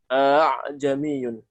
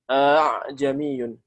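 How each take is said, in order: The two takes are said the same way.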